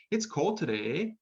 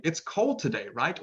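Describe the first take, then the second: First: Canadian eh. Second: Said in the usual way. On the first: Shown as a demonstration. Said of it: "they might say". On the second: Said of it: "instead of saying".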